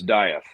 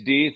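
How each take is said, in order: First: The name is pronounced the American way. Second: The name is pronounced the German way. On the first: "If you're American, it's Dieth" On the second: "if you're German, it's Deeth"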